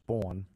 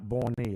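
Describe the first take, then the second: First: The word is one syllable with no final vowel. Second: The word ends with an added ee sound. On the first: The speaker calls it right. "it's born" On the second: The speaker calls it wrong. "born is not borny"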